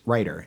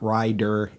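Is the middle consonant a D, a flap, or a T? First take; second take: flap; D. First: The middle consonant is a quick flap. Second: The middle consonant is a clear D. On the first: The speaker calls it right. "that is a flap" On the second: The speaker calls it wrong. "not a D sound"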